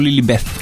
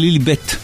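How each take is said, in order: First: The name ends with a th sound. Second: The name ends with a plain t sound. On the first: The speaker calls it wrong. "ולא עם TH" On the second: The speaker calls it right. "זה כנראה עם T בסוף"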